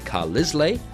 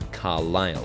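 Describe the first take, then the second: First: The S in the middle is pronounced. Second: The S in the middle is silent. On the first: The speaker calls it wrong. "you might look at that and say Carlisle, and many people do make that mistake" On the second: The speaker calls it right. "but it's Carlisle. So the silent letter is S"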